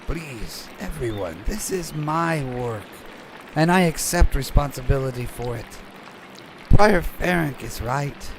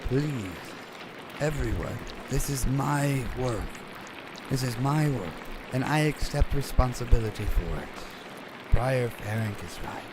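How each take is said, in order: First: It is spoken softly but more loudly. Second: It is spoken quietly and softly.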